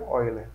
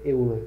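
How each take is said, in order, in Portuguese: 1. O nome é falado de forma diferente da escrita. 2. O nome é lido do jeito que está escrito. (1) "mas se pronuncia Euler" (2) "É Euler, na verdade"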